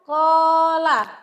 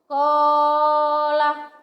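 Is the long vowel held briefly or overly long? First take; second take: briefly; overly long. First: The long vowel is held for two beats. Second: The long vowel is stretched well beyond two beats. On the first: The speaker calls it right. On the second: The speaker calls it wrong. "tidak boleh dibaca kola. Nah, tidak boleh itu, itu kelebihan"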